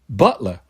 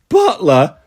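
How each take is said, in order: First: It is said at a normal volume. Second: It is said very loudly.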